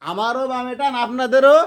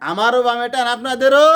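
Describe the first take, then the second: First: টান leaned on, ending in a rising question; teacher stresses টান, asking the class. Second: আমারও punched, আপনাদেরও called out loud; stress on আমারও, question shouted. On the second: Teacher calls out আপনাদেরও to the class, loud rising question. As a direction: call out আপনাদেরও to rouse the class. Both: Shown as a demonstration.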